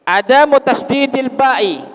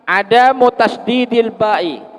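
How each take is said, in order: The two takes are said the same way.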